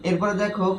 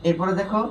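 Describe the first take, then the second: No difference in how they are said.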